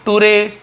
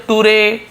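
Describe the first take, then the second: Both takes have the same delivery.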